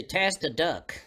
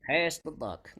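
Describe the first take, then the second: First: "Pass the duck" with b turned to d; "buck" said as "duck" by closed lips; ventriloquist mispronunciation. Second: "Pass the buck" with a crisp b; "buck" said correctly without moving lips; clear b without lips. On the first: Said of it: "Most, most ventriloquists say". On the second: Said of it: "But Terry says". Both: Shown as a demonstration.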